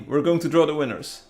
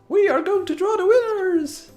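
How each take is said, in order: First: It is said in the normal speaking voice. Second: It is said in a put-on high-pitched voice.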